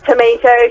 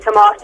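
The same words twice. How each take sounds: First: It is said with an American accent. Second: It is said with a British accent.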